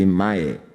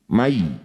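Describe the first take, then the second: First: The syllable ends in an 'eh' vowel. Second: The syllable ends in a soft 'ee' vowel. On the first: The speaker calls it wrong. "Kalau e jadi mae, berarti belum lembut" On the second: The speaker calls it right. "Berikan huruf vokal i, mai, bukan e"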